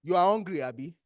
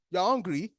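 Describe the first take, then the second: First: Statement with "Abi" dropped low at the end; "hungry" firm, then "Abi" falling away; question tag ABI. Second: "hungry" said without the "Abi" tag; bare statement ending on "hungry". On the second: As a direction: state "You are hungry" as if it were so. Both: Shown as a demonstration. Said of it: "the Abi at the end that makes it a question".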